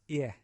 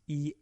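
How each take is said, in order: First: The word is said in a relaxed casual way. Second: The word is said in a very exaggerated way.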